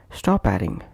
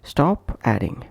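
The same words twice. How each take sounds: First: "stop adding" run together as sto-padding; consonant linked to vowel. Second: "Stop adding" with a break after p; separate words. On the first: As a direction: push the p onto "adding". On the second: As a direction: keep "Stop" apart from "adding". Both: Shown as a demonstration. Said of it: "is pronounced as".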